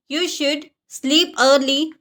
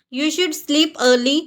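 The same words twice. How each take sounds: First: Slow, spelled-out learner repeat; slow teaching pace. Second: Said in the usual way. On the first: Shown as a demonstration. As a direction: say it slowly so learners can follow. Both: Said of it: "repeated for learners".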